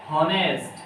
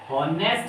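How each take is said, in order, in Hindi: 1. शब्द की शुरुआत 'ह' की ध्वनि से होती है। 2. शब्द की शुरुआत 'ह' की ध्वनि से होती है।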